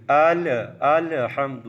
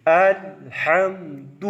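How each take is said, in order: First: ال، الحمد with a stray vowel bounced after the ل; wrong bounced lam. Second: Very slow الحمد, the ل held without bounce; lam held still. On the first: Teacher showing the mistake, ال، الحمد with a bounced ل. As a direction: let the ل bounce loose in ال، الحمد. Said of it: "اس کو یوں نہیں پڑھیں گے". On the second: Teacher showing the class how to read, الحمد with a still ل. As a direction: stretch الحمد and keep the ل still. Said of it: "کیسے پڑھیں گے؟". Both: Shown as a demonstration.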